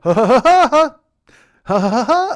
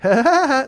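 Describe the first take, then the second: First: The laugh is drawn out and slowed down. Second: The laugh is at normal, quick speed.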